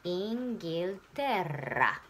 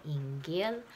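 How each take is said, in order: First: Inghilterra very slow, the double rr strongly trilled; rolled R. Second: Inghilterra with a plain L in Inghil, not rolled; unrolled L. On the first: Teacher demonstrates the strong rolled rr in Inghilterra, very slowly. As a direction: roll the rr in Inghilterra hard, slowly. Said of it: "すごく巻いて。". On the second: Teacher shows the class the L in Inghilterra is not rolled. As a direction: keep the L in Inghilterra light, no trill. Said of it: "巻かない。". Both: Shown as a demonstration.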